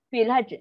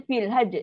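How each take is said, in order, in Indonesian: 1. Konsonan di akhir dipotong, lalu dilepaskan dengan hembusan udara. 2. Konsonan di akhir dipotong, lalu dilepaskan dengan hembusan udara.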